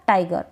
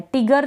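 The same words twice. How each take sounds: First: टाइगर with a full ai sound; टाइगर said with the long diphthong ai. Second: टिगर with a short i, tig-er; टिगर said wrongly with a short i vowel. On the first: Teacher gives students the right vowel, long ai. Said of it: "इसका उच्चारण आई हो रहा है". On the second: Teacher shows students the wrong vowel, short i. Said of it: "टिगर तो नहीं पढ़ सकते". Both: Shown as a demonstration.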